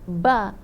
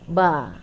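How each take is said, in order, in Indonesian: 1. Bibir menekan kuat dan melepaskan hembusan angin. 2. Bibir menutup ringan, tanpa melepaskan angin tambahan.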